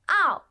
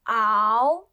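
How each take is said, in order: First: The pitch falls sharply from high. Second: The pitch rises from middle to high.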